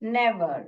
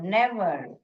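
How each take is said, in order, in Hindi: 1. पहला स्वर छोटी 'e' ध्वनि है। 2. पहला स्वर छोटी 'e' ध्वनि है।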